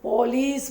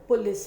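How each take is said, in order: First: It is said with an English-influenced pronunciation. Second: It is said with the standard Hindi pronunciation. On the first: The speaker calls it wrong. "अंग्रेजी का प्रभाव होने की वजह से पुलिस बोलते" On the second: The speaker calls it right. "पुलिस होता है हिंदी में"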